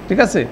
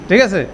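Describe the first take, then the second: No difference in how they are said.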